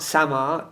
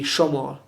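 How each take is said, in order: First: The word begins with a plain s sound. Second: The word begins with an sh sound. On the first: The speaker calls it wrong. "it's not Samar" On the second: The speaker calls it right. "it'll be Shomor, the pronunciation"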